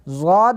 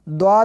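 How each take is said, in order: First: The letter name begins with a z sound. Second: The letter name begins with a d sound. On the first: "इसको ज़्वाद भी पढ़ते हैं" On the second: "और द्वाद भी पढ़ते हैं, दोनों तरह से पढ़ना दुरुस्त है"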